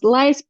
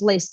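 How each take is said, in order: First: The vowel sounds like 'eye'. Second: The vowel sounds like 'ee'. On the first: This is the name's original pronunciation. "I know that it should be pronounced Leist" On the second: This is how people locally say the name. "but here everyone says Arthur's List"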